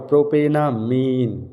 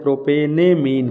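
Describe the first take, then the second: First: प्रोपेनामीन with a long aa in ना; aa vowel. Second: प्रोपेनेमीन with an e sound in ने; e vowel before मीन in प्रोपेनेमीन. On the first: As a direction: say ना, not ने, in प्रोपेनामीन. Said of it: "आ की मात्रा". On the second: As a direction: say ने, not ना, in प्रोपेनेमीन. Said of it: "वो ए की मात्रा". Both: Shown as a demonstration.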